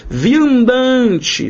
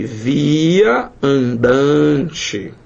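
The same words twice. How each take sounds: First: Viandante called out high; announced word. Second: Via andante drawn out very slowly, parts apart; very slow split. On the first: Teacher announcing the next example word to the class. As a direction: lift Viandante like a title. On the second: Teacher splitting the word slowly for students. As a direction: stretch via andante to show its two words. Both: Shown as a demonstration.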